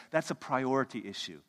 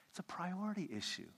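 First: Said in the usual way. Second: Soft whisper of the point; whispered repeat. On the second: Shown as a demonstration. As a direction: let it sink in with a whisper.

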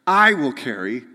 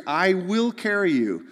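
First: I hit loud and first in I will carry; God stressing I in I will carry; emphatic I. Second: Said in the usual way. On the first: Shown as a demonstration. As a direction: punch the word I. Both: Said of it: "all of these I's in Hebrew after this are emphatic".

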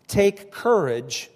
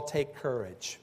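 First: Slow, louder, higher call of take courage; "Take courage" drawn out and ringing; commanding call. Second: Soft, gentle "Take courage" to soothe frightened men; hushed, reassuring "Take courage"; calming. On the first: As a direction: call "Take courage" out slow and strong, rising above the boat. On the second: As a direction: say "Take courage" quietly, settling their fear. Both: Acted. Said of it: "Jesus had to calm them".

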